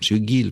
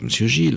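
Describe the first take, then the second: First: The name starts with a hard g sound. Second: The name starts with a soft zh sound.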